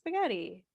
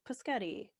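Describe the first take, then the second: First: The word begins with an s sound. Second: The word begins with a p sound. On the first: The speaker calls it right. "it's spaghetti" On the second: The speaker calls it wrong. "but then they're like paschetti"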